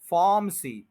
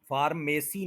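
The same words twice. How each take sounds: First: फार्मेसी with the middle vowel cut to a short schwa. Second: फार्मेसी with a long drawn A; wrong long A. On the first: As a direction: say फार्मेसी as FAR-muh-see. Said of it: "श्वा sound बन जाएगा". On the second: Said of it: "इसको लंबा नहीं करना". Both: Shown as a demonstration.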